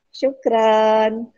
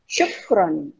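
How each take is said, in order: First: The last syllable is said with an open 'a' vowel. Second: The last syllable is said with a rounded 'o' vowel. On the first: It loses the Arabic character. The speaker calls it wrong. "Tapi kalau banyak kan bilangnya syukran" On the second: It sounds like a native Arabic speaker. The speaker calls it right.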